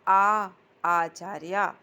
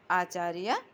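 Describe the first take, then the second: First: आचार्य drawn out slowly and loudly, rising at the end; slow dictation. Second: Said in the usual way. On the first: Shown as a demonstration. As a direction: stretch out आ in आचार्य, loud and rising.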